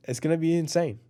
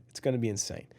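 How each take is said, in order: First: Said in the usual way. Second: Hushed earnest conviction; quiet insistence. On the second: Shown as a demonstration. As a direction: drop the voice and mean it. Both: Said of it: "I'm telling you".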